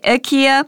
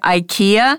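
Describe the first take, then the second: First: It is said the way the company says it. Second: It is said the usual Canadian English way. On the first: "if you say IKEA, it's also okay" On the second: "we're going to say IKEA"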